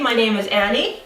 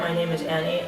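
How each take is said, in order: First: The voice is lively, with pitch going up and down. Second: The voice is flat, with little pitch movement. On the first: The speaker calls it right. "That's much better" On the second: The speaker calls it wrong. "not talking with any tonality"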